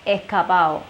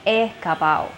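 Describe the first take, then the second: First: The d sound is dropped, joining the final vowels. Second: The same.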